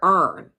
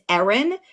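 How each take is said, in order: First: The name is said with one syllable. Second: The name is said with two syllables. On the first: The speaker calls it wrong. "they call her Ern" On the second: The speaker calls it right. "Her name has several syllables"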